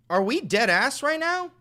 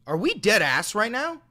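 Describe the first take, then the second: First: Much higher, louder yell of disbelief; outraged yell. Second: Loud, high outraged disbelief. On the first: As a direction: yell it, can't believe it. Repeats, even more outraged. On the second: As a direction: shout it in disbelief. Streamer outraged at chat comment. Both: Real, not acted.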